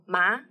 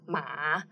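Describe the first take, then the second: First: The pitch rises from middle to high. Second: The pitch dips down and then rises. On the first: It means tingling or numb. "If we put second tone" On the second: It means horse. "which is the third tone"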